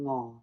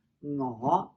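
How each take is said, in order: First: "我" low and flat; low, unmoving "我"; sixth tone. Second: "我" low with a clear upward glide; rising "我". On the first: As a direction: keep "我" down low and level. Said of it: "six tone". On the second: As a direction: lift the end of "我" from low. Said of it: "and this one is". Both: Shown as a demonstration.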